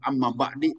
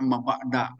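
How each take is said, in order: First: The second word ends in an i vowel. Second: The second word ends in an a vowel. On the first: "tidak boleh" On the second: "Tidak boleh dibaca amma ba'da"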